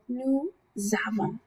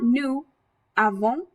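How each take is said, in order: First: A z sound links the two words. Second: The two words are said without a z link. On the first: The speaker calls it right. "that S sound that normally would be silent travels over to meet with that verb" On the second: The speaker calls it wrong. "So it's not nous avons"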